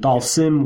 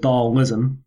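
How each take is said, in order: First: The name is said as two syllables, Dal-sim. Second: The name is said as three syllables, Dal-ism.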